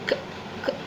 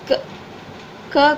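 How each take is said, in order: First: The consonant is said bare, without a vowel. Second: The consonant is followed by a vowel. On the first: The speaker calls it right. "இந்த சியை மட்டும் சொல்லணும்னா க் க் அப்படி சொல்லணும்" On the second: The speaker calls it wrong. "க க கூட சொல்லக்கூடாது"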